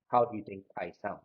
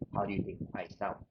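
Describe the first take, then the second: First: There is no fan noise in the background. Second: A fan is blowing noisily in the background. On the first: "so now my fan is off" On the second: "I have my fan on to simulate a windy day"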